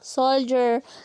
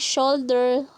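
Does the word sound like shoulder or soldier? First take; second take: soldier; shoulder. First: The word is said like soldier. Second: The word is said like shoulder.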